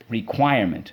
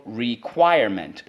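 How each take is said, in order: First: Said in the usual way. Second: "Requirement" slowly split as re, quire, ment; every syllable of "Requirement" given full weight. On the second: Shown as a demonstration. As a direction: chant "Requirement" in separate beats. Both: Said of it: "Let's go".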